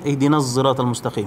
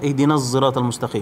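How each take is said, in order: First: The s in sirat is tinged with z. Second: The same.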